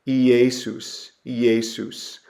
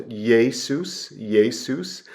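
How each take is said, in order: First: "Iesus" as ee-AY-soos; pronunciation demo. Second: "Jesus" as YAY-soos; y sound at start. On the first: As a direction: open "Iesus" on a separate ee vowel. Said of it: "So this is pronounced". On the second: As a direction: glide into "Jesus" with a y, two syllables. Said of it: "put kind of a y sound". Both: Shown as a demonstration.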